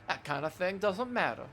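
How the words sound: It is read in a put-on character voice.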